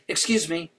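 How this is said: It sounds polite and apologetic. A small accidental bump is being apologized for. "When we bump into someone on the sidewalk, it sounds like this"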